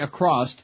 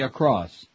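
First: The word ends with an added t sound. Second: The word ends in an s sound. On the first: The speaker calls it wrong. "Don't say across" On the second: The speaker calls it right. "say across"

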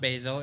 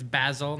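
First: It is said a non-London way. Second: It is said the London way. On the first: The speaker calls it wrong. "not basil" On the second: The speaker calls it right. "It's basil"

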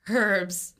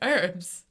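First: The word begins with an audible h sound. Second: The word begins with no h sound. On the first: "I'm calling herbs" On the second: "rather than herbs"

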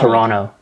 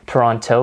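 First: The second T is dropped. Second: The second T is clearly pronounced. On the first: The speaker calls it right. "You want to not pronounce the second T. It's just Toronto" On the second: The speaker calls it wrong. "you want to make sure that you don't pronounce it Toronto"

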